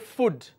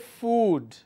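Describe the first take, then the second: First: The vowel is short. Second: The vowel is long. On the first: The speaker calls it wrong. "We don't say food" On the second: The speaker calls it right. "we say food"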